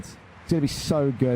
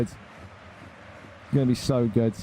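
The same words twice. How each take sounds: First: Said in the usual way. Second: Drawn-out, softer, savouring gloat; slow softer gloating drawl. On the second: Real, not acted. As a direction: relish every word slowly, quieter. Gloating over rivals' future losses.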